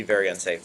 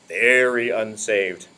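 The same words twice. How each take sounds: First: Said in the usual way. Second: "very unsaved" stretched slow and low; drawn-out emphasis. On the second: Shown as a demonstration. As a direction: linger on "very unsaved" to make the point land. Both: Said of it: "I guess you can't really be very unsaved".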